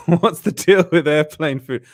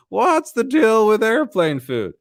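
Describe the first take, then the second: First: Lightly done comic impression, slow; a hint of a stand-up's voice, drawn out; Jerry Seinfeld. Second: Full-on high, drawn-out comic impression; slow, exaggerated stand-up setup, pitched way up; Jerry Seinfeld. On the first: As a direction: ease into the comedian's setup slowly. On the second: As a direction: stretch every word high, like an observational comic. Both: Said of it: "I love doing that voice".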